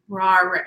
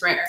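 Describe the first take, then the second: First: The name has an 'aw' vowel, like rawr. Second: The name has an 'air' vowel, like rare. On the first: The speaker calls it wrong. "rawr, no" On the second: The speaker calls it right. "it's rare"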